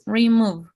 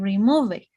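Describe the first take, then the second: First: The word ends without any extra vowel sound. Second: An extra vowel sound is added at the end. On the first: The speaker calls it right. "Just remove" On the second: The speaker calls it wrong. "we don't say remove it"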